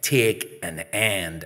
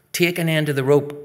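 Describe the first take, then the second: First: Slow, spaced-out command; insistent repeated order. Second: Raised, louder command; bossy order. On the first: Girl repeating her order to a boy who refused, insistent. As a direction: spell the order out slowly. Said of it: "I said". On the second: Girl ordering a boy onto the rope, bossy. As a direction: order it briskly from the start. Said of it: "Bridge orders". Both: Acted.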